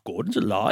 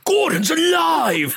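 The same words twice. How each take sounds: First: It is asked quietly as a question. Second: It is shouted as an exclamation.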